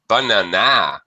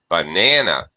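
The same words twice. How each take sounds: First: The stress is on the last syllable. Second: The stress is on the second syllable. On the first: The speaker calls it wrong. "If you stress the last syllable" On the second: The speaker calls it right. "stressing the second syllable"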